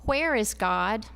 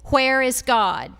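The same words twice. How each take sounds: First: Asked sternly at a moderate volume. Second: Asked sternly with a raised, loud voice.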